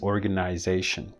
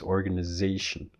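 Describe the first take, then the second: First: The vowel after 'organ' is a full diphthong. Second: The vowel after 'organ' is reduced to schwa. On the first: "In British English, it stays organization" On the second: "in North American English, it's organization"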